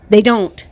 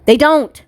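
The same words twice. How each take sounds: First: Said in the usual way. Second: Emphatic. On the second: Shown as a demonstration. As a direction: punch the denial up high.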